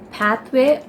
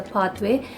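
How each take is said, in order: First: Flat short A in "pathway"; American pronunciation. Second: Long open AH in "pathway"; Indian pronunciation. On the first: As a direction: say "pathway" with the A of "cat". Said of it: "in the U S, they call this". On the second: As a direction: say "pathway" as PAHTH-way. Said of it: "or we call this as". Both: Shown as a demonstration.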